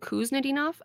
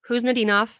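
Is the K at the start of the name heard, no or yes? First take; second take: yes; no. First: The initial K sound is pronounced. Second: The initial K sound is silent. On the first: The speaker calls it wrong. "Previously, I was saying Kuznetdinov. I was wrong" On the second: The speaker calls it right. "You do not pronounce the K. It is Kuznetdinov"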